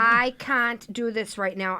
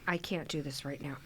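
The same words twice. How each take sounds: First: It is said in a put-on voice. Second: It is said in her normal voice.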